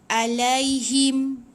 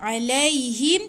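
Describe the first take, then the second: First: It begins with a plain glottal catch. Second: It begins with a deep throaty sound. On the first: The speaker calls it wrong. "Dia bukan alaihim. tu nanti macam hamzah pula" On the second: The speaker calls it right. "hati-hati dengan ain"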